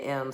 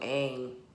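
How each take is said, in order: First: The vowel sounds like 'eh', rhyming with 'hem'. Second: The vowel sounds like 'ay', rhyming with 'game'. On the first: The speaker calls it wrong. "it looks like it say M because it's literally an E and an M" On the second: The speaker calls it right. "so aim. Pronunciation is key"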